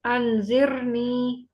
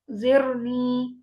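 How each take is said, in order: First: अनजिरनी very slow with a light thin र. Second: जिरनी very slow, र light and thin. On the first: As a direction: draw out अनजिरनी, keeping र thin. (अनजिरनी बहुत धीरे, र बारीक) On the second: (जिरनी धीरे, र बारीक) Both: Shown as a demonstration. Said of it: "ये रॉ बारीक पड़ी जाएगी".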